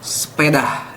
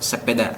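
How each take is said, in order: First: The word is said with an added h sound. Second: The word is said without an added h sound. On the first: This is how people from West Java say it. "biasanya ada huruf H. Ini biasanya orang-orang Jawa Barat atau orang Sunda" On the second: This is the ordinary way to say it. "Sepeda biasa"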